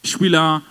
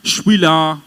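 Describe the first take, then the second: The two takes are said the same way.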